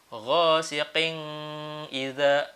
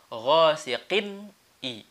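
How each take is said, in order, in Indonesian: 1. Bunyi n dipanjangkan dengan dengung sengau. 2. Bunyi n tegas tanpa dengung sengau. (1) "tidak boleh ada dengung-dengung. Misalnya begini... Bacaannya salah" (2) "Harus jelas"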